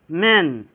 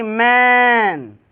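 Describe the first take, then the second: First: "मैन" said as "men", short e; quick short vowel. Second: "मैन" hugely stretched and held; long-drawn vowel. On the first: Teacher models the short word, quick "मैन". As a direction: keep "मैन" brief, like English "men". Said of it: "एकदम जल्दी तेज़ी से पढ़ना है". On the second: Teacher shows what not to say, long-drawn "मैन". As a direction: drag out the vowel of "मैन" as a mistake. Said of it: "ये नहीं कि मैन". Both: Shown as a demonstration.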